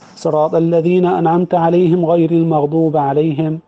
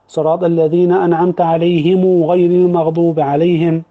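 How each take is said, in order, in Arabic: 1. «alayhim» الأولى تنتهي بالميم بدون حركة. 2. «alayhim» الأولى تنتهي بضمة ممدودة. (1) "الوجه الأول السكون" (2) "الوجه الثاني الصلة"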